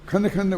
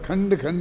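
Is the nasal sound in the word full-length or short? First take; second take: short; full. First: The nasal sound is said short, about half-length. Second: The nasal sound is said at full length. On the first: This keeps the verse meter intact. The speaker calls it right. "तो तुम खंड खंड बोलना पड़ेगा" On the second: This breaks the verse meter. The speaker calls it wrong. "खंड खंड नहीं बोल सकते"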